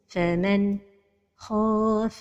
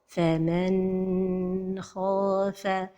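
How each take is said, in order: First: There is a break right after the n. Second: The n sound is held too long. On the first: "La dernière erreur, c'est la pause" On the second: "c'est de prolonger son temps"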